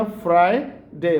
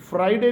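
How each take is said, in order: First: "फ्राइडे" split slowly, "fry... day"; slow "फ्राइडे" with a full first "fry"; American Friday. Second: "फ्राइडे" run together with short ending; quick local-style "फ्राइडे"; wrong Friday. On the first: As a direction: stretch "फ्राइडे" into two beats. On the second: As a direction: say "फ्राइडे" in one hurried piece. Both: Shown as a demonstration. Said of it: "फ्राइडे नहीं कहना".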